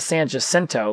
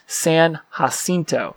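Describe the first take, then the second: First: The name is said with ordinary English sounds. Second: The name is said with Spanish-style sounds. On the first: The speaker calls it wrong. "It's not San Jacinto like we would normally pronounce it" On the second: The speaker calls it right. "it's pronouncing it correctly. It's San Jacinto, like Cinco, but Cinto"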